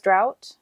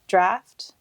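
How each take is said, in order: First: The vowel sounds like 'ow', ending in 't'. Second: The vowel is a short 'a', ending in 'ft'. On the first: The speaker calls it wrong. "I've been pronouncing it as drought" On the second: The speaker calls it right. "but it's apparently draft"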